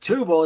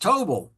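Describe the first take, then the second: First: The first vowel sounds like 'oo'. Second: The first vowel sounds like 'oh'. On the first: The speaker calls it wrong. "it's not pronounced Tubal" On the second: The speaker calls it right. "it's pronounced Tobol"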